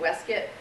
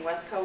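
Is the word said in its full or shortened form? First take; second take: shortened; full. First: The word is said in a shortened form. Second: The word is said in its full form. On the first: This is how it was said in that period. "Sometimes it was pronounced waistcoat" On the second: This is the usual modern pronunciation. "Instead of saying waistcoat"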